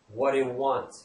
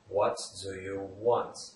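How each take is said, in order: First: The words run together and blend into one. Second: Each word is said separately and distinctly. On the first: "In spoken English, words tend to blend together" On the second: "If you just stick individual words together when pronouncing it"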